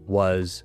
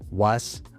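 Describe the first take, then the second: First: The vowel is a short central 'uh' sound. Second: The vowel is an open Spanish 'ah' sound. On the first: The speaker calls it right. "It should be was and bus" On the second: The speaker calls it wrong. "You can see that it happens with was too"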